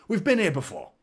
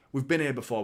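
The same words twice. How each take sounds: First: We've been here before, been pushed up high and loud; emphatic higher repeat. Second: Said in the usual way. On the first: Real, not acted. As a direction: insist hard on "been" like a rallying cry.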